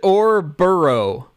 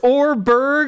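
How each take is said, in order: First: The name ends with a longer 'borough' sound. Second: The name ends with a short 'berg' sound. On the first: "It's definitely Orburo" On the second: "If it's Orberg"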